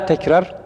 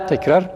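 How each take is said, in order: The two takes are said the same way.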